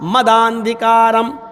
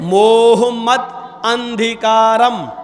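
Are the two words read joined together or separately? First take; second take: joined; separately. First: The words merge and the 'a' joins the 'd'. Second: The two words are read separately with an 'a' sound. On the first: "जब एक साथ मिलाकर पढ़ेंगे" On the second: "जब यहां अलग अलग करके पढ़ेंगे"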